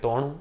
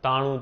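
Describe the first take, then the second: First: The first vowel is an o sound. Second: The first vowel is an open a sound. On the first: This is the Charotar and North Gujarat dialect form. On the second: This is the standard Gujarati form.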